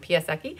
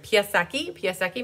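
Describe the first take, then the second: First: The name is said very quickly. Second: The name is said at a slower pace.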